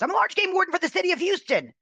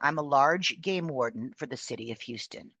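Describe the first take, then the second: First: The sentence is rushed out very quickly. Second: The sentence is spoken more slowly. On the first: "this is how fast he said it"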